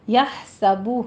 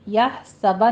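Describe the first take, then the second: First: The word ends in a rounded 'oo' vowel. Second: The word ends in an open 'ah' vowel. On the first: The speaker calls it right. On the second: The speaker calls it wrong.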